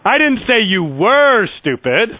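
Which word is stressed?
were. The stress falls on the word were. The listener is stupid now. "I'm saying you are stupid"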